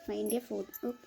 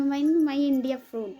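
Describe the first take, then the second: First: Said in the usual way. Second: Very slow, louder, struggling English; halting broken English. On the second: Retold or imitated. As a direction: drag out each word searching for English. (धीरे धीरे अटकते हुए टूटी अंग्रेज़ी में) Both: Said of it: "मैं अब कैसे बताऊँ उनको".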